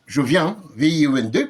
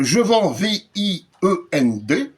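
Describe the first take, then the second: First: Said in the usual way. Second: "vends" said slowly like "vent", then each letter spelled out; slow mocking read of "vends" with the letters spelled out one by one; "vends" pronounced "vɑ̃" as written, then the letters spelled slowly; misspelling read aloud. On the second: Shown as a demonstration.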